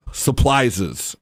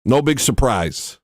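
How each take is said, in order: First: "Supplises" with an L in place of the R; mispronounced surprises. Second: Said in the usual way. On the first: Retold or imitated. Quoting a friend's catchphrase, mispronounced as "Supplises". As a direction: say "Supplises", L for R, ending in an extra syllable. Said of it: "as Marcella Ray likes to say".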